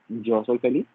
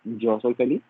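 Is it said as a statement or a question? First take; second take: question; question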